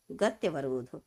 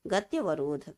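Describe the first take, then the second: No difference in how they are said.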